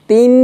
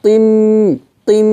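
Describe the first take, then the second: First: তিম with a thin, higher-pitched light t. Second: তিম with a heavy, thickened t; thick T. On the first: Teacher rejecting a mistake, তিম with a thin t. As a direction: keep the t of তিম light and plain. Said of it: "না". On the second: Teacher showing it this way, তিম with a thick t. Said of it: "এভাবে". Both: Shown as a demonstration.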